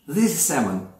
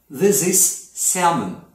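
First: Said in the usual way. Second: Slow demo sentence. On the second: Shown as a demonstration. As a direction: model it carefully for the class. Teacher demonstrating English sentence.

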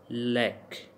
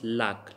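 First: Said in the usual way. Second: "lack" said as "lahk". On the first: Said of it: "But here we will pronounce". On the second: Shown as a demonstration. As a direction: open the vowel of "lack" to ah. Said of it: "A pronounced like A".

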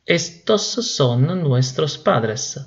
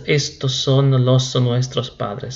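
First: Very slow, careful model sentence; teacher dictating the right form very slowly; correct version, very slowly. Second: Slow demo of the mistake with los; teacher slowly showing the wrong form; wrong version, slowly. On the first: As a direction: spell out estos son nuestros padres word by word. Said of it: "sino que es". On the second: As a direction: say estos son los nuestros padres slowly, as the error. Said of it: "no es". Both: Shown as a demonstration.

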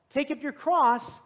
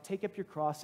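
First: Higher, louder, slow proclamation; calling to crowd. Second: Softer, level, gentle reply. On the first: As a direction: take up your cross, called out slowly to the whole crowd. Jesus calls to the crowd. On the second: Jesus answers the prayer. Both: Acted.

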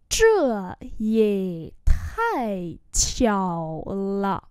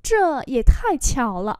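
First: Very slow, drawn-out syllables; slow model reading. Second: Said in the usual way. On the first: Shown as a demonstration. Teacher repeating a phrase for learners, very slowly. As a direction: let each tone run its course.

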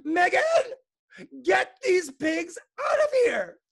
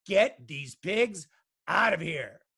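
First: Very high, loud, drawn-out screech; principal's yell. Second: Slow, loud, measured bellow; father's yell. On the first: Principal orders Megan to remove pigs, high screeching yell. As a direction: screech the order at the top of your voice. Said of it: "The principal yelled". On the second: Father wants pigs out of the kitchen, slow loud bellow. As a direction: order it word by word, loudly. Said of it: "yelled her father". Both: A narrator's reading.

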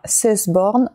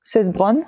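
First: Cesborn said with the r before the o, as ses-BORN; the slip Cesborn, r placed too early; misread name. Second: Cesbron said properly, ses-BRON, r right after the b; corrected name. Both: Real, not acted.

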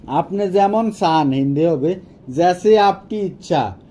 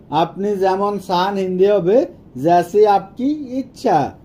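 The two takes are said the same way.

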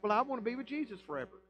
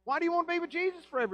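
First: Quick, lightly put-on pious voice; tossing off an easy claim; mock sinner quote. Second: Much higher, very fast disbelief; incredulous retort. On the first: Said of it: "And then you're like". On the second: Acted. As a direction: fire it back in disbelief. Preacher fires back incredulously.

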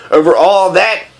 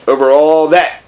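First: "all that" lifted into a rising question. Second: "all that" settled as a statement; answering. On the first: Prince asking the king about the stars, rising question on "that". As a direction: ask it, ending upward on "that". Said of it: "asked the prince". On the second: King answering the prince, settled statement on "that". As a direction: confirm it evenly, no rise on "that". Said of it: "the king answered". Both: A narrator's reading.

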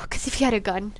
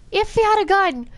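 First: Said in the usual way. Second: High, raised exclamation; emphatic repeat. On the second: Real, not acted. Player imagining the Dreg with a gun, high emphatic cry. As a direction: throw it up high for dramatic emphasis.

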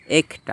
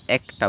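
First: একটা with a closed "e", ek-ta; ek-ta, closed first vowel in একটা; wrong pronunciation. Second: একটা with an open "ae", aek-ta; correct pronunciation. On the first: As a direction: say একটা as spelt, with "e" as in "bed". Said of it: "না, আমরা একটা বলি". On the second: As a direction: open the first vowel of একটা to "a" as in "cat". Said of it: "এটা এ হয়ে গিয়েছে". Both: Shown as a demonstration.

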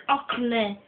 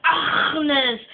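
First: Ahmed with a hard, short k-like middle; mimicked mispronunciation. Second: Agnes with a long, rasped throat sound in the middle; throaty pronunciation. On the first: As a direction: say Ahmed the wrong way, without the throaty rasp. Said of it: "No, you say Ahmed". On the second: Shown as a demonstration. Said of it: "You must say Agnes".

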